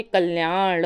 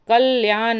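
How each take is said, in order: First: कल्याण with a hard retroflex ending; correct form. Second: कल्याण ending in dental n; plain n at the end of कल्याण; wrong form. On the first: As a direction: curl into "kalyaaṇḍa" for कल्याण. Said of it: "बल्कि कल्याण होता है". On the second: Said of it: "कल्याण नहीं होता". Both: Shown as a demonstration.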